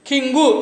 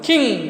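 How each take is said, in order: First: An extra vowel is added after the ng. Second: The word ends cleanly on the ng sound. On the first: The speaker calls it wrong. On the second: The speaker calls it right.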